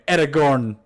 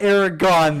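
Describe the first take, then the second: First: The last syllable has an r sound. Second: The last syllable has no r sound. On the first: The speaker calls it right. "there's an R in there" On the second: The speaker calls it wrong. "it is so not Aragon"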